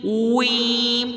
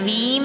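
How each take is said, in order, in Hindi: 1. होंठ पहले गोल होते हैं, फिर स्वर के लिए फैल जाते हैं। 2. पहली आवाज़ बिना गोल होठों के बनती है। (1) "पहले होंठों को प्रॉपर सीटी की तरह गोल, फिर वापस जेर की तरफ आना है।" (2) "वीम नहीं पढ़ना"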